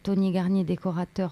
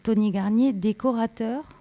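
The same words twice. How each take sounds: First: The voice falls at the end like a statement. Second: The voice rises at the end like a question. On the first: It is stated as a plain fact. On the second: It is put as an open question. "avec une autre intonation"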